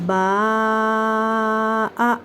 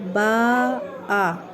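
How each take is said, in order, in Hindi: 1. आख़िरी स्वर लगभग तीन मात्रा जितना खींचा जाता है। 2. आख़िरी स्वर सामान्य लंबाई तक खींचा जाता है। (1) "आप तीन अलिफ के बराबर खींचे इसे" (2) "ये हमने बड़ी आवाज़ पढ़ा।"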